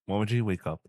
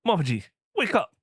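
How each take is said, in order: First: It is said calmly and gently. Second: It is said loudly, almost shouted.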